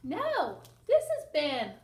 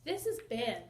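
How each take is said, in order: First: "this" hit louder and higher; stress on this. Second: Said in the usual way. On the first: Shown as a demonstration. Teacher corrects her reading, stressing "this". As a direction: correct herself, punching "this". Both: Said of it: "I got that wrong".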